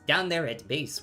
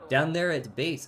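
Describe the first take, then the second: First: It is said in a put-on character voice. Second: It is said without the character voice.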